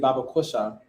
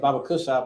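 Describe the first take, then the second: First: It is said carefully, with each sound clear. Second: It is said quickly, with sounds run together. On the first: This is the real form. The speaker calls it right. "but it's really" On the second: This is how people mishear it. The speaker calls it wrong. "People talk fast, they think it's"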